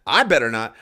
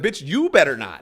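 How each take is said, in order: First: Loud, disbelieving "I better not"; indignant echo. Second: "you better not" higher and louder, turned back on her; indignant retort. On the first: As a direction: throw "I better not" back louder, as a challenge. Indignantly throws her warning back. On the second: Retort turning warning on her. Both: Retold or imitated.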